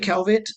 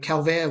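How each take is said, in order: First: The name is said in an English style. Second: The name is said in a French style. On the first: This is how the family and New Zealand say it. "we we say Calvet" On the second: This is the original pronunciation from France. "would probably be the um, proper pronunciation"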